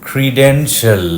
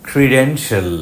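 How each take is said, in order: The two takes are said the same way.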